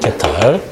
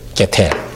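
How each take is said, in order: First: The last syllable has an 'eo' vowel. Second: The last syllable has an 'e' vowel. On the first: The speaker calls it wrong. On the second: The speaker calls it right.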